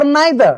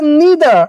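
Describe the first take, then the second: First: "neither" said as NYE-ther; long-i neither. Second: "neither" said as NEE-ther; long-ee neither. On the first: Teacher giving students the other option, "neither" as NYE-ther. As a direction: say "neither" with an eye sound in the first syllable. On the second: Teacher giving students one option, "neither" as NEE-ther. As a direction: say "neither" with a long ee in the first syllable. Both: Shown as a demonstration. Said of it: "neither or neither".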